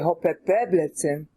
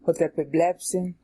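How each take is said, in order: First: The stress falls on the syllable epe. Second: The stress falls on the syllable blep. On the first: The speaker calls it wrong. "it makes your tongue get all tied up" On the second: The speaker calls it right. "you're gonna keep your stress there"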